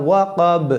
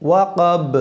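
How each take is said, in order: Both takes have the same delivery.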